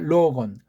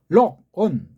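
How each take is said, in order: First: The syllables run smoothly together without a break. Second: The syllables are split apart with a break.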